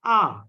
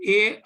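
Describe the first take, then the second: First: A said as open "ah"; French letter A. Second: A said as "ay"; name A the English way, "ay"; English letter A. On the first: Teacher contrasts French with English, A as French "ah". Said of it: "in French, it is A". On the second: Teacher contrasts English with French, A as English "ay". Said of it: "In English, we have A alphabet". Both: Shown as a demonstration.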